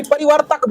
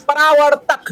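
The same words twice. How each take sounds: First: Imitating the mistaken परिवर्तक with i in the second syllable; mock the pupil's slip on परिवर्तक; wrong form. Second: परावर्तक said clearly with a long aa after पर; correct form. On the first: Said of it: "ये परिवर्तक बोलता है". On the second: Shown as a demonstration. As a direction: stress the aa: परा-वर्तक, firmly and clearly. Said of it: "परावर्तक बोला".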